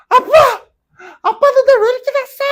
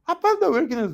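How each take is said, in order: First: Put-on shrill high teen yell, much louder, hitting 날; a moody teenage girl screaming at her father; shouting teen daughter. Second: Mock daughter's outburst. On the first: A documentary daughter yelling at her dad in a shout. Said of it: "소리를 지르는 거야". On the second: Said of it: "딸이 돼가지고 아빠한테 막".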